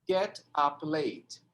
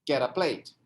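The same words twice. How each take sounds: First: Each word is said separately, without linking. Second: The words run together, linked into one stream. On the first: "vou falar bem separado" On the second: "Vai ficar"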